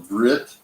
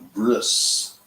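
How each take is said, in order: First: The word ends with a t sound. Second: The word ends with an s sound. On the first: "he has what's called a brit" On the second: "They call it a bris, B R I S"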